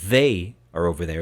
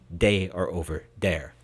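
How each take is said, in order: First: The words begin with a soft th sound. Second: The words begin with a hard d sound. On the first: "instead of" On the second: "replace the the sound with the duh sound entirely"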